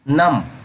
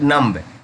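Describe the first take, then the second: First: The b is silent. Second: The b is pronounced. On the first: The speaker calls it right. "इसे नम पढ़ेंगे" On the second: The speaker calls it wrong. "नम्ब नहीं पढ़ेंगे"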